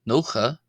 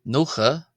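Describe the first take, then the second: The two takes are said the same way.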